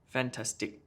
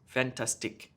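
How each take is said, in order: First: All syllables get equal stress. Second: The same.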